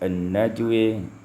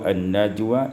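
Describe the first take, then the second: First: The final vowel is tilted toward 'e'. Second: The final vowel is a plain open 'a'.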